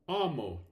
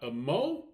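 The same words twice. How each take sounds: First: The stress is on the first syllable. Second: The stress is on the second syllable. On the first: The speaker calls it right. "the stress will fall on the first syllable" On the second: The speaker calls it wrong. "not amo. That would be wrong"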